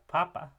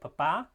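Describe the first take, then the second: First: The stress is on the first syllable. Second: The stress is on the second syllable. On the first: It means potato or pope. "if you were to stress the first syllable" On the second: It means dad. "above the second P in the first example"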